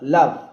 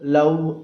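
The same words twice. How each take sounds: First: The word ends in a v sound. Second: The word ends in an oo vowel. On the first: The speaker calls it right. "కింది పెదవి పై పంటితో కొరికి పెట్టి చదపాలి" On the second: The speaker calls it wrong. "చివరి అక్షరాన్ని వదిలేసి ఊ అని చదువుతాం మనం అందరం. అలా చదవకూడదు"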